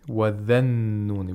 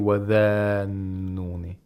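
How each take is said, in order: First: The vowel after 'dh' is short. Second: The vowel after 'dh' is long. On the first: The speaker calls it right. "we have to pronounce it like a fatha" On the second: The speaker calls it wrong. "We don't say wadhanuni"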